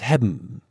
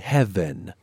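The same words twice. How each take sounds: First: The word is said in a relaxed dialect pronunciation. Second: The word is carefully and fully articulated. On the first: "it's heaven" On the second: "instead of articulating heaven"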